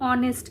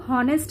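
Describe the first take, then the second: First: The word begins directly with a vowel. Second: The word begins with an h sound. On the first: The speaker calls it right. "इसे हम लोग ऑनेस्ट कहते हैं" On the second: The speaker calls it wrong. "इसे हम लोग हॉनेस्ट नहीं कहते"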